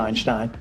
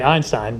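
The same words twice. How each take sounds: First: It is said with a German pronunciation. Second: It is said with an American pronunciation. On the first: "Proper German pronunciation" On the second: "in America, we say Einstein"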